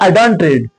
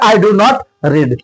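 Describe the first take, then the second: First: Do and not merge into one contracted syllable. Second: Do and not are said as two full words. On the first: "कहने में ये थोड़ा सा अच्छा लगता है" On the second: "और यहां पे"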